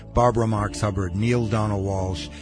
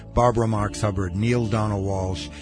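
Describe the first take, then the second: The two takes are said the same way.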